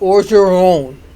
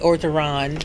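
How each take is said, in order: First: The name is pronounced the French way. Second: The name is pronounced the English way. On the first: "which is French" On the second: "but you might say"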